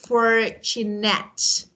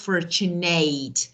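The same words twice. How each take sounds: First: The last syllable sounds like 'at'. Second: The last syllable sounds like 'eight'. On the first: The speaker calls it right. "So these words are pronounced as at" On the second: The speaker calls it wrong. "not fortunate"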